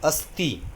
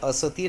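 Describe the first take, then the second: First: The s and t are joined with no vowel. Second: A vowel is heard between the s and t. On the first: The speaker calls it right. "हे अस्ती" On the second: The speaker calls it wrong. "असती नाही"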